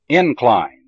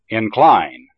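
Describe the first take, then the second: First: The stress is on the first syllable. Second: The stress is on the second syllable. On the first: It is used as a noun. "the first syllable of the noun has primary stress" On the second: It is used as a verb. "the second syllable of the verb has primary stress"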